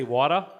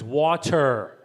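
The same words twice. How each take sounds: First: Water with a dropped r, wah-tuh; Boston accent. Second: Water said slowly the local way, with the r; local pronunciation. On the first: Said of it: "the glossary is actually a Boston accent glossary". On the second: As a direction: stretch out water slowly, r sounded. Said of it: "I think it's how you pronounce it here". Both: Shown as a demonstration.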